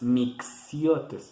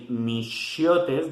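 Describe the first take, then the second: First: The middle consonant is a ks sound. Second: The middle consonant is an sh sound. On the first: "like the X" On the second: "the X is pronounced like sh"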